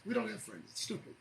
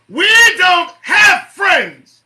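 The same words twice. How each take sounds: First: Soft, quick drop after an outburst; quiet aside. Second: Loud, high, drawn-out yell; emphatic shout. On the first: Host repeating the point to listeners, hushed. Same words dropped right down. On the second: Host driving a point home to listeners, shouting. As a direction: belt it out slowly, word by word. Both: Real, not acted.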